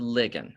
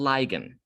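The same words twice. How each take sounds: First: It uses the chemistry pronunciation of the word. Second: It uses the biology pronunciation of the word. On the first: This is how the word is said in chemistry. "in chemistry, we pronounce it as a ligand" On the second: This is how the word is said in biology. "in biology, they pronounce this as a ligand"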